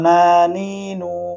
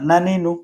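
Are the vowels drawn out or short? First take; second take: drawn out; short. First: The vowels are stretched out long. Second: The vowels are said short and quick. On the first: The speaker calls it wrong. "এখন যদি এখানে টান হয় নানি নু, তাহলে এটা হবে না" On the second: The speaker calls it right. "কেননা হরকতের উচ্চারণ তাড়াতাড়ি করে পড়তে হয়।"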